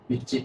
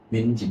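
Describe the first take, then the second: First: The second syllable starts with a tensed consonant. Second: An n sound is inserted before the second syllable. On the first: The speaker calls it right. "된 소리로 바꿔보거나" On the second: The speaker calls it wrong. "니은을 넣어보거나 이상하지?"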